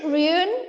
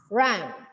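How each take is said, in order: First: The vowel is a rounded 'oo' sound. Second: The vowel is an open 'uh' sound. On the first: The speaker calls it wrong. "But is it run? No, right?" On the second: The speaker calls it right. "alfabet U sounds as A"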